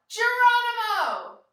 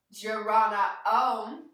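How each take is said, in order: First: Loud high Geronimo yell. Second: Said in the usual way. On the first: Shown as a demonstration. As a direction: shout it as you jump. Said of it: "we're gonna yell". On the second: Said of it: "Except we're gonna yell".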